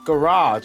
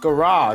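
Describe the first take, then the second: First: It is said with an American pronunciation. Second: The same.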